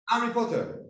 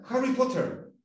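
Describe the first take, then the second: First: "Harry" said as "Arry"; H dropped in HARRY. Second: "Harry" with its initial H, then "Potter"; H sounded in HARRY. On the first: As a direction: drop the H from "Harry". ("Harry" sin la H, como "Arry") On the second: ("Harry" con la H inicial aspirada) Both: Shown as a demonstration. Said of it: "a veces se comen la H inicial".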